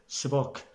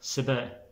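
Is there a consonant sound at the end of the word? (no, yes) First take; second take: yes; no. First: The final consonant at the end is pronounced. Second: The final consonant at the end is silent. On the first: This is the classical Arabic form. "classic Arabic they'll say sibak" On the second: This is the Egyptian dialect form. "Egyptians they'll say siba"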